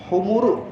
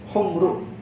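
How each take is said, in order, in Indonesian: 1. Bunyi vokal u terdengar di antara m dan r. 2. Tidak ada vokal yang terdengar di antara m dan r. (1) "Jangan dibaca humuru ya" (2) "dibacanya dengan mimnya itu diberikan sukun"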